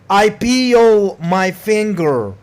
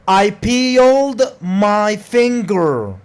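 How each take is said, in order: First: The D sound in peeled is dropped. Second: The D sound in peeled is pronounced.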